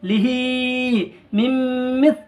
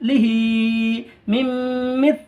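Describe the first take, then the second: No difference in how they are said.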